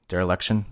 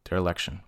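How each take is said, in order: First: Dereliction with a questioning rise; testing how Dereliction sounds; unsure pronunciation. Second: Dereliction with a quiet falling close; landing on Dereliction; settled pronunciation. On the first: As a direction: try out Dereliction, unsure, rising at the end. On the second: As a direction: say Dereliction softer, settling it with a fall. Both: Real, not acted. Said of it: "why can I not pronounce that".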